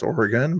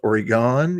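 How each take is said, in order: First: It is said with the local pronunciation. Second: It is said with the Californian pronunciation. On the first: The speaker calls it right. "even though it's" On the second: The speaker calls it wrong. "So you might think it's"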